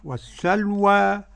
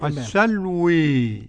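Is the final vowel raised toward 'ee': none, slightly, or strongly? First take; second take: none; strongly. First: The final vowel is a fully open 'a'. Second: The final vowel is strongly raised toward 'ee'. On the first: "قرأ بالفتح والتقليل ورش" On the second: "حمزة والكسائي وخلف العاشر بالإمالة"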